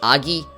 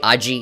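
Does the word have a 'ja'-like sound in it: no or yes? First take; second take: no; yes. First: The word has no 'ja'-like sound in it. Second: The word has a 'ja'-like sound in it. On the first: Others say it this way. The speaker calls it wrong. "Some people say it's Agi" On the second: It sounds more like fire and more powerful. The speaker calls it right. "I say Agi. It just sounds a lot better"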